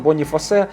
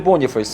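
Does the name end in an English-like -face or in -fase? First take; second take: -fase; -face. First: The name ends in -fase with a final e. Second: The name ends in an English-like -face. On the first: The speaker calls it right. "там написано Боніфасе" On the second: The speaker calls it wrong. "не Боніфейс"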